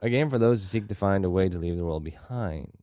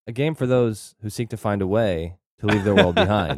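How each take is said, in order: First: Sing-song rhyme reading; rhyming couplets. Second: Imitating a stiff, choppy tagline reading; clunky reading. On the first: Shown as a demonstration. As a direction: bounce the beat like a rhyme. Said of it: "the way you do it". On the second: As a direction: mimic the clunky word-by-word read. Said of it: "That's how you read it".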